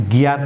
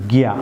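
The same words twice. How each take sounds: First: গিয়ার with the final r sounded; common mispronunciation. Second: গিয়া with no r at the end; silent final r. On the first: Teacher shows viewers a common error, r sounded in গিয়ার. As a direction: say গিয়ার ending on a clear r. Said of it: "আমরা অনেকে এটিকে গিয়ার pronounce করে থাকি". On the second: Teacher corrects viewers, গিয়া with the r dropped. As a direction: end গিয়া on an open "aa" vowel. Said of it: "viewers, এবার গিয়া". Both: Shown as a demonstration.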